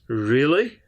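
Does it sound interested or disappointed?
interested. It sounds interested and curious.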